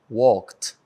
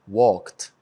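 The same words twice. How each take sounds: No difference in how they are said.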